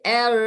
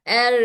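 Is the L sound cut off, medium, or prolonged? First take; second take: prolonged; prolonged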